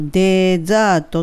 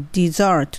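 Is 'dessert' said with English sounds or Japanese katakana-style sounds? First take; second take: Japanese-style; English. First: It is said with Japanese katakana-style syllables. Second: It is said with English sounds and an R. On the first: The speaker calls it wrong. "のままいくとデザートっていう風に読めちゃうんですけど" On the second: The speaker calls it right. "英語的なディザートになる"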